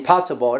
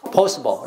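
First: Put-on "possible" with the older, not-to-be-used first vowel; old-style possible. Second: "possible" with an o sound in the first syllable; current-style possible. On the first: Teacher showing students what not to say, old-style "possible". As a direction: say "possible" the outdated way, as a wrong example. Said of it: "不是possible". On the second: Teacher correcting the class's old habit, o-vowel "possible". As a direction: model "possible" clearly with the o vowel. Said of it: "现在possible". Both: Shown as a demonstration.

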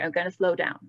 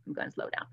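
First: Said in the usual way. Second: Breathy murmured repeat, voice dropped away; a soft whispered aside. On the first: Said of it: "This is too fast". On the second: Real, not acted. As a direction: whisper it to yourself. Repeats promise after chat complaint.

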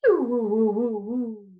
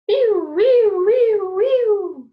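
First: Louder wees sliding down to woos; wee then woo. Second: High, loud sliding wees; high wee warm-up. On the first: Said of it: "Now try wee". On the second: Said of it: "Let's try this one". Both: Shown as a demonstration.

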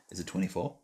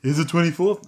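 First: Said in the usual way. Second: Put-on high, cooing baby talk. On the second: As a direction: ask it like a little baby. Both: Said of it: "I'm using my baby voice now".

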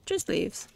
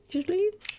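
First: Said in the usual way. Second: "Just leaves" squeaked very high, rising on leaves; high silly voice on "Just leaves"; squeaky mock. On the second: Player mocks the loot in a squeaky voice.

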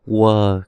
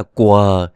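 First: "Quờ" said as "wờ", no k sound; southern Vietnamese quờ. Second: "quờ" said with a k onset, "kwờ"; the rejected "quờ", pronounced kwờ; wrong hard quờ. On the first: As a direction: say "Quờ" southern-style, starting on a w glide. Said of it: "của cái người miền Nam". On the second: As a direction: start "quờ" on a hard k before the w. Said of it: "chứ không phải là quờ". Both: Shown as a demonstration.

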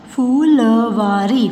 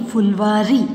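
First: Phulwari slow, every syllable held. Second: Said in the usual way. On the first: Shown as a demonstration. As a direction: sound out Phulwari in pieces. (फुलवारी को तोड़-तोड़ कर, धीरे) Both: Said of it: "sound pronounce करके देख लीजिए".

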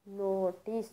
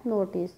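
First: notice softly broken into नो and टिस; syllable by syllable. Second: Said in the usual way. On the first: Shown as a demonstration. Teacher counts sounds for students, notice split into syllables. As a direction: say notice in separate, softer syllables. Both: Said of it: "sounds create हुई हैं".

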